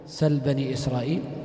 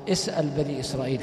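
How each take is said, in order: First: The first word is short, without a glottal stop. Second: The first word is full, with a glottal stop. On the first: "سل من السؤال بتخفيف الهمزة" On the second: "وقرئ اسأل على الأصل"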